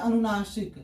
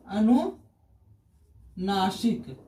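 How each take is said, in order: First: Said in the usual way. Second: अनुनासिक very slow and lower, split in two with a long pause; slow dictation. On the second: Shown as a demonstration. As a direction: draw out अनुनासिक part by part for a class. Teacher breaks up the term for students.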